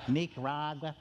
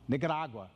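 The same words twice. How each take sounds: First: It is said in a Southern American pronunciation. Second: It is said in a Spanish-style pronunciation. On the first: The speaker calls it wrong. "It's all you Southern folk that don't pronounce it right" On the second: The speaker calls it right. "I pronounce it correctly"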